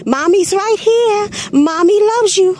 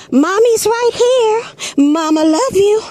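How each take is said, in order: First: A high, unhurried mom's reassurance; mock how calm she sounded; calm mother. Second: High, slow, calm mother's reassurance; mother soothing her child. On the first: Mother calling to her son in the gorilla moat, lightly imitated and calm. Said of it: "didn't sound like it to me". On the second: Retold or imitated. Mother calling down to her boy in the moat, high and slow. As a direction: coo it like a mom calming her kid. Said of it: "you hear the mama say".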